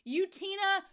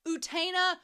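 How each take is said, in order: First: The name is said with an English pronunciation. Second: The name is said with a Japanese pronunciation. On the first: "Here's what they tell me in English how to say it" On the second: "But then I go over to Japanese"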